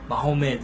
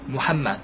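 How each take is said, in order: First: The name is said as Mahomet. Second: The name is said as Muhammad. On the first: The speaker calls it wrong. "역시 잘못된 표현입니다" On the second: The speaker calls it right. "이렇게 무함마드라고 쓰시고 발음하실 수 있어요"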